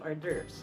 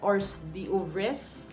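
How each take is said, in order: First: It is said like 'or-durvz', silent letters dropped. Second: Every letter is sounded out as written. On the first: The speaker calls it right. "Pero actually, ang basa doon would be" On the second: The speaker calls it wrong. "kung babasahin mo siya phonetically, you would read it as"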